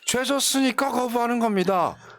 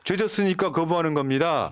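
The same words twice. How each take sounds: First: It is said in a put-on imitation voice. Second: It is said in the speaker's ordinary voice.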